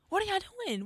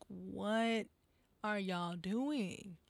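First: Much higher, incredulous repeat of the question; high disbelief. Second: Slow and quiet. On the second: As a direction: let it sink in slowly and softly. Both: Real, not acted. Disbelief at the crowd.

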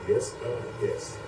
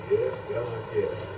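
Both takes have the same delivery.

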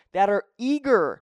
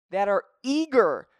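The two takes are said the same way.

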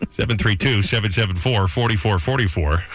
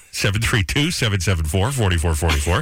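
First: Punchy announcer number read. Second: Number read with lifting ends; announcer read, rising. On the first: Radio host giving listeners the call-in number, announcer style. Reads station phone number. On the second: Radio host repeating the call-in number, rising. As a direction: repeat it with each group rising. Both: Acted.

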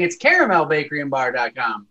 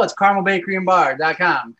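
First: "caramel" said CARE-uh-mel, all three syllables; three-syllable pronunciation. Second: "carmel" said CAR-mul, second A dropped; two-syllable pronunciation. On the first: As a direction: sound out the second A in "caramel". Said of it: "I just kept saying". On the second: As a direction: drop the middle vowel in "carmel". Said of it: "You forgot the second A". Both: Retold or imitated.

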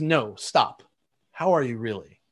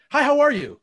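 First: Lower, unhurried, earnest question; sincere, really asking. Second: Bright, much higher, louder quick hello; breezy rhetorical greeting. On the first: Friend halting the small talk to ask how he really is, sincere and unhurried. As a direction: stop and truly ask. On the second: Salesman skipping past the greeting to get to the deal, breezy and high. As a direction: toss off the greeting without wanting an answer. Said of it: "curiosity with a means to an end". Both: Retold or imitated.

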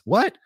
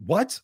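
First: Higher, louder rising what, in shock; can't believe what he just heard; a stunned second what, pushed up and louder; louder disbelieving what. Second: Sharp rising what, higher; a startled first what; surprised what. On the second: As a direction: caught off guard, asking what. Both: Retold or imitated. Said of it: "And I was like".

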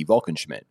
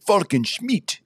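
First: Said in the usual way. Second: High-pitched mock-Transylvanian vampire name; Transylvanian accent. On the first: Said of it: "Except I said". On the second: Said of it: "in, like, a Transylvanian accent".

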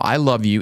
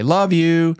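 First: Said in the usual way. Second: Higher, louder sing-song love you; habitual sing-song. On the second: Retold or imitated. Dad's automatic goodnight to daughters, sing-song. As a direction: toss off the usual sing-song. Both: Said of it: "in the same inflection and same tone".

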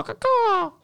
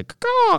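First: High squawking caw; bird caw. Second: Said in the usual way. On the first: Shown as a demonstration. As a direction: screech it like a bird. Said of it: "change the bird one to caw-caw".

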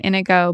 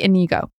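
First: Inigo said IN-uh-go; speaker's usual pronunciation. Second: Inigo said ih-NEE-go; alternative pronunciation. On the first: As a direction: stress the first syllable of Inigo. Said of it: "I will be saying Inigo". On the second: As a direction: stress the middle syllable of Inigo. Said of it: "it could be Inigo". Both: Shown as a demonstration.

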